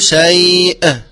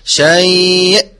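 First: The final glottal stop is released with an echo. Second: The final glottal stop is clear with no echo. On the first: The speaker calls it wrong. "ولا أقول شيء وهو خطأ" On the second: The speaker calls it right. "هكذا شيء"

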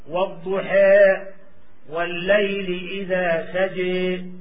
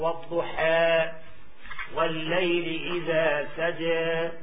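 First: The final vowel is strongly inclined toward e. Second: The final vowel is halfway between a and e. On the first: "أردنا الإمالة الكبرى" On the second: "هذا تقليل"

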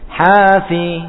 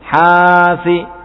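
First: The syllables are read with a lilting, swung rhythm. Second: The syllables are read flat, with an overlong vowel. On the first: The speaker calls it right. "dua-dua diayun seperti ini" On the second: The speaker calls it wrong. "Kalau lurus terkadang ya, terkadang lebihan"

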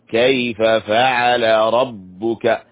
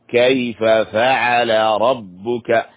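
No difference in how they are said.

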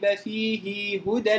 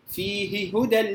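First: The vowel after the h is drawn out long. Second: The vowel after the h is kept short. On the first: "ابن كثير انفرد بصلة هاء الكناية" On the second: "وبقية القراء بالقصر"

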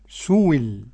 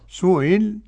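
First: The middle sound is replaced by a clear w. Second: The middle sound is a softened, eased glottal catch. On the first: "والإبدال واو" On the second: "التسهيل بين"

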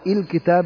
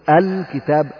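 First: The word begins with a different vowel. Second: The word begins with an 'a' vowel. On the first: The speaker calls it wrong. "لا تقول الكتاب" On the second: The speaker calls it right. "يبقى لام التعريف فإننا نبدأها بالفتح"

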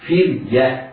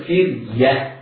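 Both takes have the same delivery.

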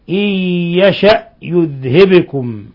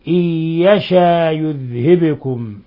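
First: A glottal stop is pronounced after the vowel. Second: The glottal stop is replaced by a long vowel. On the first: This is the reading of the other reciters. "وقرأ الباقون بالهمز" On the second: This is one reciter's variant reading. "أبو جعفر بإبدال الهمزة ألفا، ... أما أبو جعفر فوصلا ووقفا"

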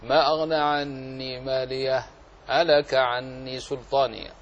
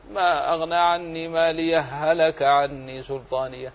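First: A brief silent pause separates the two h sounds. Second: The two h sounds merge with no pause. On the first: "يجب أن تأتي بشيء من السكت اللطيف" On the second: "وإن شئت فأضغم"

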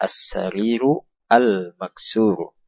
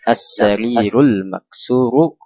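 First: Each word is pronounced separately in full. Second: The two words are joined into one flow.

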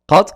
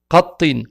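First: The word ends on a consonant with no vowel. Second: The word ends with an added -in sound. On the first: "à la fin, il y a une sukun. Donc, il n'y a pas de voyelle" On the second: "avec al-kasra à la fin"

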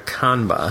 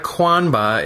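First: The name begins with a plain k sound. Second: The name begins with a kw sound. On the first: The speaker calls it right. "it's a Kanba" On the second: The speaker calls it wrong. "There's no U, so it's not a Kwanba"

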